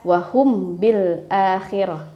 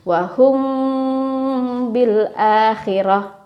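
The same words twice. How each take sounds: First: The nasal m passes quickly without being held. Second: The nasal m is held before continuing. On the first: The speaker calls it wrong. "Jangan langsung dibaca" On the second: The speaker calls it right. "tapi ditahan dulu"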